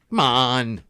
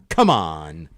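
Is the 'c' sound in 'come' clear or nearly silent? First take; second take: nearly silent; clear. First: The first sound of come is nearly silent. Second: The first sound of come is fully pronounced. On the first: The speaker calls it right. "the sea is almost silent" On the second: The speaker calls it wrong. "it's not like"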